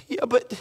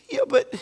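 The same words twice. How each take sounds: First: Said in the usual way. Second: Jumps way higher, a whining mocking "Yeah, but"; mock a lazy excuse, pitched up high; mock whiny excuse.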